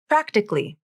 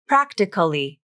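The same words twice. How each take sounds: First: The word is said with three syllables. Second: The word is said with four syllables. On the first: "The second A is dropped from the pronunciation and it is pronounced as three syllables" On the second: "you may hear someone say practically"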